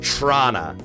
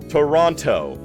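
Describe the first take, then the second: First: Squeezed into a very clipped two-syllable form. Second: Said the way an American sportscaster says it. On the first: The speaker is deeply rooted in the city. "Your pulse sounds like the T T C" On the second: The speaker is an outsider. "You're an American sportscaster"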